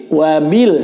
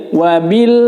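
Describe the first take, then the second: Both takes have the same delivery.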